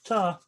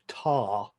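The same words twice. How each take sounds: First: The vowel is short and clipped. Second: The vowel is drawn out and long. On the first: The speaker calls it right. "we don't elongate the word as such" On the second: The speaker calls it wrong. "not quite as tar as um, as the Canadian Alana said"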